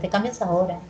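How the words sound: The pitch falls at the end. It is a statement or instruction. "la mayoría de oraciones tienen entonación que, ¿qué dijimos? Descendente"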